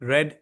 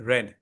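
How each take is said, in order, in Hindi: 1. स्वर छोटा है, 'red' जैसा। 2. स्वर छोटा है, 'red' जैसा।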